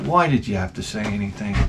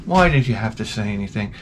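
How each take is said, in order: First: Soft, lower exasperated mutter. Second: Soft, low repeated grumble; exasperated mutter. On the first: Narrator to the parent who warned the kids, soft exasperated grumble. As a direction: grumble it under your breath. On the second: Narrator repeating himself to the parent, soft fed-up mutter. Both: Retold or imitated. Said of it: "I'm like".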